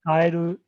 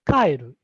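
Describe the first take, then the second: First: Its pitch accent gives the meaning frog. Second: Its pitch accent gives the meaning go home. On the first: The word means frog. "kaeru frog" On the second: The word means to go home. "kaeru to go home"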